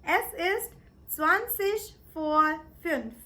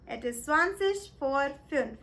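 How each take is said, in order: First: Slow, careful German; "zwanzig vor fünf" drawn out syllable by syllable; German demo. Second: Said in the usual way. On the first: Shown as a demonstration. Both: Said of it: "This is how you say it".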